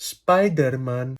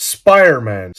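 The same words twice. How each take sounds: First: Put-on SPIDERMAN slow, in a heavy Greek accent; mock Greek accent. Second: SPIDERMAN run together in fluent English; authentic English accent. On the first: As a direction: spell out every sound of "Spiderman" the Greek way. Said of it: "με ελληνική προφορά". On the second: Shown as a demonstration. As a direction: say "Spiderman" like a native, the d nearly swallowed. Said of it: "μιλάω με αυτή την προφορά".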